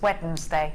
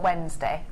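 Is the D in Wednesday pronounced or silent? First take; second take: pronounced; silent. First: The D in the middle is clearly pronounced. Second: The D in the middle is silent. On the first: "If you were my gran, it was Wednesday" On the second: "not Wednesday"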